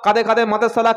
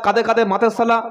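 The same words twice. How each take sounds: The two takes are said the same way.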